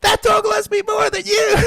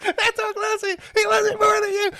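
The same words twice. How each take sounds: First: High shouted taunt; mock drunk girlfriend shout. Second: High, lightly voiced taunt; drunk girlfriend taunting. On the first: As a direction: yell it like a drunk woman showing off. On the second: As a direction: tease in her high voice.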